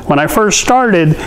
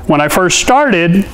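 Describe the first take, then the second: No difference in how they are said.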